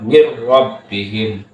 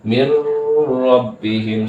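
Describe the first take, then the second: First: The merged sound is kept short. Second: The merged sound is held too long. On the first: The speaker calls it right. "Yang benar adalah" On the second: The speaker calls it wrong. "jangan lama ... salah"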